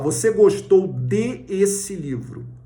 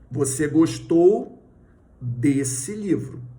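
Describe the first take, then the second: First: De and esse are spoken as separate words. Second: De and esse merge into one word, desse. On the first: The speaker calls it wrong. "Você não fala" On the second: The speaker calls it right. "Como é que você fala?"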